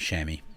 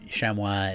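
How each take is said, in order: First: It is said with the local New Zealand pronunciation. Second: It is said with a French-style pronunciation. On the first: This is the everyday local nickname. "the nickname, we just like everyone in New Zealand just calls them chamois" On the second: This is the proper original name. "chamois is the, the proper name for them"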